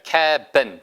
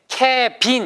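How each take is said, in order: First: The stress is on the first syllable. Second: The stress is on the second syllable. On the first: The speaker calls it right. "앞에 K 액센트가 있기 때문에 ... cabin처럼 들려요" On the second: The speaker calls it wrong. "cabin 이렇게 안 나고요"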